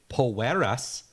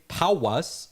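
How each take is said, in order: First: Said with an added Spanish-style ending syllable. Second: Said with an accent, without an added ending. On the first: The speaker calls it wrong. "but don't say poeras" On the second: The speaker calls it right. "Say powwas or say it with an accent"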